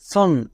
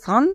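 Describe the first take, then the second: First: The vowel falls between 'ah' and 'o'. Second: The vowel is an open 'ah' sound. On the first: The speaker calls it right. "এর উচ্চারণ হচ্ছে মাঝখানে" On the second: The speaker calls it wrong. "কেউ করে সান"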